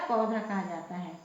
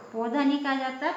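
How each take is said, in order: First: पौधा with an open au; correct au. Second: पौधा said wrongly with o; the wrong way, पौधा as poda; wrong short o. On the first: (सही उच्चारण, खुला औ) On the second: (गलत उच्चारण पौधा) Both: Shown as a demonstration.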